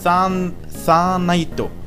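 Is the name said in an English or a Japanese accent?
Japanese. It is said with Japanese-style pronunciation. "japanisch ausgesprochen wird es im Grunde Sanaito"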